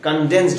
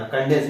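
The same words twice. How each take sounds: First: कंडेंस्ड with a clear final d; कंडेंस्ड, the corrected word, said louder; correct form. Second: कंडेंस without the final d sound; कंडेंस, the form not to use; wrong form. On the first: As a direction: finish कंडेंस्ड on a crisp d. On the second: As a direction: say कंडेंस cut short with no d. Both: Shown as a demonstration. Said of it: "कंडेंस नहीं बोलते".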